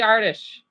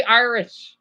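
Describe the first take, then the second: First: Irish said as "Ar-tish", first vowel open "ah"; Irish-sounding Irish. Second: Said in the usual way. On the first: Shown as a demonstration. Vlogger slips into Irish-style Irish, said "Ar-tish". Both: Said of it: "I can't say Irish".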